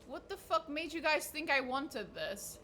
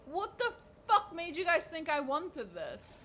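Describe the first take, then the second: First: Slow, disbelieving complaint; exasperated question. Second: Higher, louder slow outraged shout; outraged yell. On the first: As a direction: ask it baffled and annoyed. Baffled at unwanted gift. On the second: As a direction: blow up in disbelief. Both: Real, not acted.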